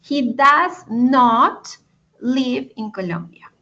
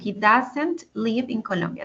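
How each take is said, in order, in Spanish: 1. Does not se dice como dos palabras completas. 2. Does not se contrae en dos sílabas.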